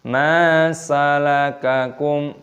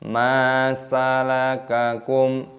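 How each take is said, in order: Both takes have the same delivery.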